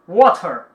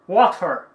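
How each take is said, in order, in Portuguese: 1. Sotaque americano, com o som de R pronunciado. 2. Sotaque americano, com o som de R pronunciado.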